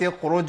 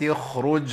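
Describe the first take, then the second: First: The kh sound is dropped entirely. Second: The kh sound is clearly pronounced. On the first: The speaker calls it wrong. "الخطا ان انا ممكن اخفي الحرف بالكليه" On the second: The speaker calls it right. "نقولها بقى بشكل صحيح"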